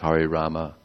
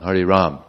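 First: The second word ends with a vowel. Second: The second word ends on the m sound. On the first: The speaker calls it right. "it's Hare Rama" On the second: The speaker calls it wrong. "It's not Hare Ram"

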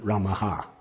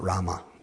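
First: The name ends with an extra breathy 'ha'. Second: The name ends plainly on the vowel. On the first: The speaker calls it right. "It's Sri Ramaha" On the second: The speaker calls it wrong. "it's not Rama"

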